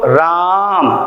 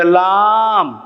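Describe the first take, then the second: First: राम said clearly with a proper r sound; correct r. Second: लाम drawn out slowly with l in place of r; lisping child. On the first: Teacher demonstrates the correct word, clear r. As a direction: say राम with a clean tapped r. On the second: Teacher imitates a child mispronouncing राम, slow lisping. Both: Shown as a demonstration. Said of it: "र को ल में उच्चारित करते हैं".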